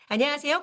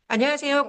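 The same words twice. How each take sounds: First: The voice sounds smiling and glad. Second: The voice sounds plain, without a smile.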